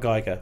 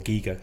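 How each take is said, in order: First: The first vowel sounds like 'eye'. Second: The first vowel sounds like 'ee'. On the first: This is how the speaker usually says it. "I say Geiger" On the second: This is how the artist himself says it. "or Giga, as he described it"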